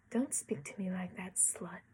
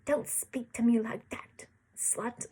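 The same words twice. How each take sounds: First: Said in the usual way. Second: Spat line. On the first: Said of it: "I guess I should read it as". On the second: Shown as a demonstration. Reader redoing the boy's insult, spat louder. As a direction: spit the words at her. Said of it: "He spat".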